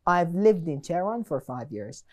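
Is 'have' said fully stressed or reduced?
reduced. Have is reduced and unstressed.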